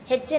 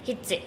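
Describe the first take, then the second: First: The first vowel sounds like 'e'. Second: The first vowel sounds like 'i'. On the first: The speaker calls it wrong. "हेच्चे नाही" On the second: The speaker calls it right.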